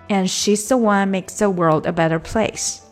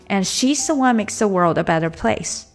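No difference in how they are said.

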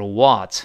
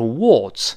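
First: The vowel is said with a wide-open mouth. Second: The vowel is said with a smaller mouth opening. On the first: "美式呢口型奔放一点，都是what，口型大一些" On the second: "英国人都是what"

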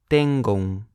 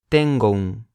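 Both takes have the same delivery.

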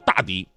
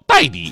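First: The first syllable is pronounced da. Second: The first syllable is pronounced dai. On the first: The speaker calls it wrong. "他其实他根本就不叫大迪" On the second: The speaker calls it right. "那个大是多音字，又念戴，他让我以后管他叫戴迪"

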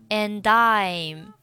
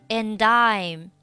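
Both takes have the same delivery.

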